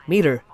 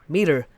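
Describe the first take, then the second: No difference in how they are said.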